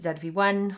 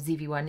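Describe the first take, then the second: First: The letter Z is pronounced 'zed'. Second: The letter Z is pronounced 'zee'.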